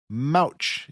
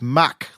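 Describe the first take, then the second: First: The vowel sounds like the one in 'couch'. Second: The vowel sounds like the one in 'rock'. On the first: The speaker calls it wrong. "you pronounce it like Mouch" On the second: The speaker calls it right. "It's Mach, like the airspeed"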